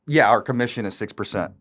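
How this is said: The voice falls at the end.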